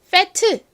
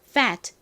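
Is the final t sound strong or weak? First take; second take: strong; weak. First: The final t is released strongly. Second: The final t is soft, like escaping air. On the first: The speaker calls it wrong. "세게 fat 이렇게 소리가 나는 것이 아니라" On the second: The speaker calls it right. "굉장히 약하게 발음이 납니다. 그래서 fat, fat 이렇게 바람 빠지듯이"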